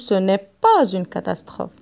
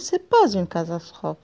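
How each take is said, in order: First: The word 'ne' is clearly pronounced. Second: The word 'ne' is dropped entirely. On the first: This is the full written form. "À la phrase négative, je dis" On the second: This is the casual spoken form. "je parle à l'oral, on dit"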